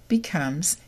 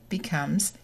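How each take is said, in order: Both takes have the same delivery.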